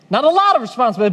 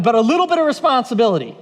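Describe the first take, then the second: First: Quick line with "lot" punched; stress on "lot". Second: "little bit" lifted and squeezed; quick line leaning on "little bit"; stress on "little bit". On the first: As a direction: hit "lot" to set up a contrast. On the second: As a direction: underline "little bit" as the contrast. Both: Real, not acted. Contrasts amounts for emphasis.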